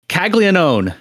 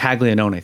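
First: Caglianone said as kag-lee-uh-NOHN, final e dropped; anglicized name. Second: Caglianone said as kahl-yah-NOH-neh, final e sounded; Italian pronunciation. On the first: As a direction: Caglianone with no final vowel, English style. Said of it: "you just lost your Italian card". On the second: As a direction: Caglianone with the Italian ending vowel. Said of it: "Caglianone, by the way, Mark". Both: Real, not acted.

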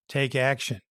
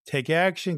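First: Said in the usual way. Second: Urging them on, the second time lifted; stress on ACTION. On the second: Real, not acted. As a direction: Take action, with action lifted higher.

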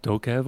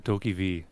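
First: Dokev as one word, ending in "kev"; two-syllable pronunciation. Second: Doki V as "DOH-kee-VEE"; three-syllable pronunciation. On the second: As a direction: end Doki V on the letter name "vee". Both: Shown as a demonstration. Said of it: "is that how you say it".

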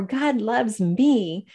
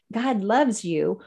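First: God loves me said very slowly, falling at the end; slow, deliberate. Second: God loves you said very slowly and evenly; slow, deliberate. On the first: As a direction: draw out God loves me word by word. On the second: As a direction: let each word of God loves you land slowly. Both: Shown as a demonstration. Telling the host what to say aloud, slow and deliberate. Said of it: "studies that you just say".

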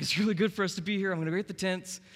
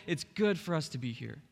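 First: High, loud and fast eager gush; excited Peter. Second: Said in the usual way. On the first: Retold or imitated. Peter gushing to Jesus on the mountain, excited and fast. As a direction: blurt it out thrilled. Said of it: "So Peter is all excited". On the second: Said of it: "They said".

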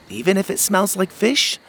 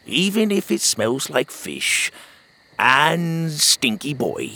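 First: Put-on higher, teasing kid's question; a cheeky little boy asking; young boy. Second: Lightly voiced old sea dog, slow and fond; old sailor. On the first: Pockets teasing Otis about the fishy boat, higher kid voice. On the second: Otis answering Pockets on the boat, slow old sailor voice. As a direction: savor the words like a gruff old grandpa.

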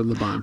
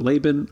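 First: "Laban" said luh-BAHN; "Laban" stressed on the second syllable, BAHN. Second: "Laban" said LAY-bin; "Laban" stressed on the first syllable, LAY; Laban as LAY-ben. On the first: Asking co-host which name to use, Laban as luh-BAHN. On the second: Asking co-host which name to use, Laban as LAY-ben. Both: Shown as a demonstration. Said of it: "are we going with Laban or Laban?".

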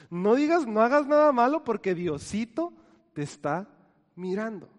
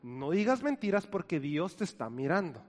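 First: Put-on louder, stern warning to a child, fading at the end; mock scolding warning. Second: Said in the usual way. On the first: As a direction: scare a kid out of lying. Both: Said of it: "utilizamos esta frase para asustar a los niños".

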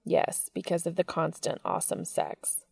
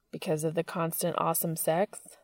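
First: Smiling agreement that settles down at the end; answering smile. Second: Playful teasing question with a rising end; teasing grin question. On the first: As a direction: give it back with a smile, falling tone. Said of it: "said Cass with an answering smile". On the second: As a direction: tease him with a grin, lifting the end. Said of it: "said Dean with a grin". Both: A narrator's reading.

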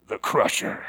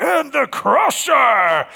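First: Low, hushed unveiling of a monster; low, ominous reveal. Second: High, drawn-out announcer's roar; monster-truck arena announcer. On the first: Shown as a demonstration. Preacher revealing the truck's name, low and ominous. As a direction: drop low and soft on the name. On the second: Acted. Announcer introducing a monster truck in an arena, hyped up. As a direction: hype the crowd with a slow, booming introduction. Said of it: "sound like one of those things? If you're in some arena".

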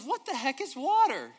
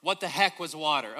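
First: Put-on young fish, quoted again. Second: Said in the usual way. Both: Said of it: "No, he says".

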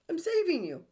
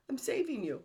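First: Mock overbearing insistence; insistent critic. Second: Said in the usual way. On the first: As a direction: push it on them like a controlling parent. Voicing the inner critic.

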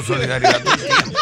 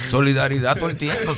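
First: Much higher, laughing; high laughing exhortation. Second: Said in the usual way. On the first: Retold or imitated. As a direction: squeak it out laughing. (exhortación aguda entre risas) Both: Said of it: "Yo le decía al amigo mío".

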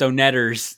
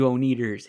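First: Onetters said "oh-NET-ers"; short e, stressed NET in Onetters; correcting pronunciation. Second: Oneaters said "oh-NEE-ders"; long ee in the middle of Oneaters; deliberate mispronunciation. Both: Retold or imitated. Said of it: "Hey, that's Onetters".

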